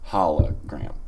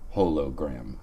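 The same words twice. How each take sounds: First: The first syllable sounds like 'holl'. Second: The first syllable sounds like 'hole'. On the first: The speaker calls it right. "and it is hologram" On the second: The speaker calls it wrong. "It is not hologram, as I, for a long time, pronounced it"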